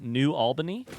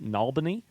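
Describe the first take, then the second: First: Said in the usual way. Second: New Albany run together as "Nalbany"; local pronunciation. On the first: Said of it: "which is pronounced". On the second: Shown as a demonstration. Streamer showing how locals say it, New Albany contracted to Nalbany. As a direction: squash New Albany into one word, Nalbany. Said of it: "which is pronounced Nalbany".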